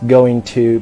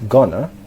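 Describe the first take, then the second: First: It is said as two full words. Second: It is said as one reduced word. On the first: "the phrase going to" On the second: "becomes gonna in informal speech"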